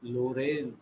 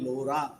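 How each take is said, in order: First: The name ends with an n sound. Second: The name ends with a vowel sound. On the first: "બે પ્રકારે મોટી ભાગે એનો ઉચ્ચાર થતો હોય છે" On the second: "બે પ્રકારે મોટી ભાગે એનો ઉચ્ચાર થતો હોય છે"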